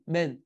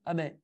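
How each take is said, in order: First: The opening vowel is dropped from the word. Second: The final n sound is dropped from the word. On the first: "je dis pas le A du début" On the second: "comme si je zappais la dernière lettre"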